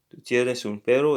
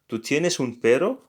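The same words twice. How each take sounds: First: The voice falls at the end. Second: The voice rises at the end. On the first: It states that you have a dog. "it's just a statement" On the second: It asks whether you have a dog. "you have to raise, sorry, your voice at um, at the end"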